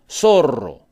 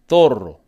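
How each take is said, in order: First: It is said without the Spain pronunciation. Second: It is said the way people in Spain say it.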